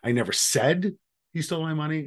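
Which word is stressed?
said. The stress is on "said".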